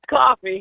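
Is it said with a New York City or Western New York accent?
Western New York. Coffee is said in a Western New York accent.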